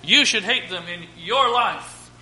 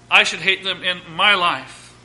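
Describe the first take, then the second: First: "you" and "your" both weighted; stress on YOU and YOUR. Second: "I" and "my" both weighted; stress on I and MY. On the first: Preacher assigns each hearer their own sin, stressing "your". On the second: Preacher takes on his own sin, stressing "my". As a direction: lean on "I" and "my". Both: Shown as a demonstration. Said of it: "I want to put emphasis on my life".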